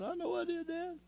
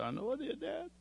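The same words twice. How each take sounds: First: Pitched even higher, cracking into tears; the second admission falls apart completely; voice breaking. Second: A son's broken admission, barely holding together; choked confession. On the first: Son confessing again, voice breaking. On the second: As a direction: voice climbs high and thin, close to tears. Son confessing to his father. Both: Retold or imitated.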